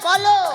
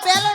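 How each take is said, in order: First: The word is said as bolo. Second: The word is said as belo. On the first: The speaker calls it right. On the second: The speaker calls it wrong. "বেলো নয়"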